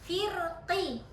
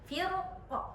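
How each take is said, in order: First: The word ends with a full, clear vowel. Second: The word ends on a bare consonant. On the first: The reciter pronounces the vowel fully without stopping. "Kalau jelas kan tahqiq" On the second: The reciter makes a normal stop on the word. "Ketika kita wakof kan rasanya gini"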